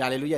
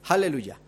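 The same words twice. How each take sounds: First: The word begins directly with a vowel. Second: The word begins with an audible h sound. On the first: "En vez de decir aleluya" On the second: "con la aleluya"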